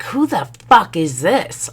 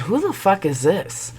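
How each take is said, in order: First: High, punchy comeback; mimicked indignant woman. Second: High, restrained confrontation; indignant demand. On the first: Other woman answering the wife's call, mimicked indignation. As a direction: throw the question back with high attitude. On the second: Retold or imitated. Wife calling the texter back, indignant. Wife calls unknown number, retold.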